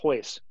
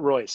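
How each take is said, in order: First: The name begins with an H-like sound. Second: The name begins with an English R sound. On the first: The speaker calls it right. "it's Royce because in Brazil, every R is a H" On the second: The speaker calls it wrong. "not Royce"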